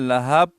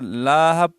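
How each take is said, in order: First: The second vowel is drawn out long. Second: The first vowel is drawn out long. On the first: "या लहाब पढ़ते हैं" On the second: "अक्सर लाहब पढ़ते हैं"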